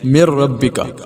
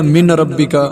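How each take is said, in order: First: The n is silent, merging into the r. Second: The n is clearly pronounced before the r. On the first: The speaker calls it right. "ऐसे पढ़ेंगे जैसे नून है ही नहीं है" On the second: The speaker calls it wrong. "ये गलत है"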